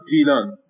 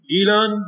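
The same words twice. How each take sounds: First: گیلان said as "jilan", g turned to j; Arabicized j form. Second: گیلان with a hard g at the start; original g form. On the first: Lecturer showing g changed into j, Arabicized j form. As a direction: start گیلان with a j sound, falling. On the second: Lecturer giving the form before g turns to j, original g form. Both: Shown as a demonstration.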